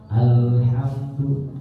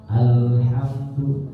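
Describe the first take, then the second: First: The l sound is drawn out, flowing. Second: The l sound is drawn out, flowing.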